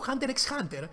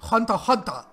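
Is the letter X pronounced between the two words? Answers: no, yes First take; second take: yes; no. First: The letter X is spoken between the words. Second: The letter X is left out between words. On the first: "από την αρχή το λέω Hunter x Hunter" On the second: "Κανονικά ο τίτλος είναι Hunter Hunter. Το X δεν προφέρεται"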